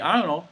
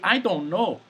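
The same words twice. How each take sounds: First: The words are slurred into one sound. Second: Each word is said clearly and fully. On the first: This is how people in New York say it. "People say I don't know. ... it's just a sound" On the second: This is the standard form, not used in New York. "people don't say I don't know"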